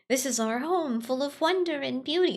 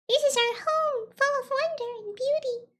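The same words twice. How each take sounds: First: It is said in the speaker's normal voice. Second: It is said in a put-on little guy voice.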